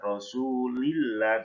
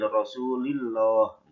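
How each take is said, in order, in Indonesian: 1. 'l' pada 'Allah' dibaca tipis dan ringan. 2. 'l' pada 'Allah' dibaca tebal dan berat.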